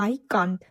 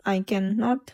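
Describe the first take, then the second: First: "can't" as one short syllable; "I can't" contracted, no separate "not". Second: "can not" as two separate words; "I can not" spoken in full, not contracted. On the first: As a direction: say "I can't" run together. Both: Shown as a demonstration. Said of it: "তখন উচ্চারণটা হবে".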